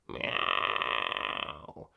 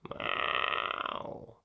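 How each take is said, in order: First: The meow is placed back at the soft palate. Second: The same.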